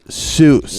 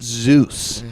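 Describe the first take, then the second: First: The name begins with an S sound. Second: The name begins with a Z sound. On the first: The speaker calls it right. "I'm going to pronounce it right" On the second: The speaker calls it wrong. "not Zeus"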